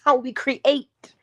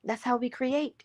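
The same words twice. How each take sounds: First: Slow and higher, leaning on "how we create"; stress on how. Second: "That's how we create" repeated much softer, almost to oneself; soft echo. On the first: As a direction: draw out "how we create" to teach it. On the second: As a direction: let "That's how we create" sink in quietly. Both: Shown as a demonstration. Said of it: "repeats the line twice".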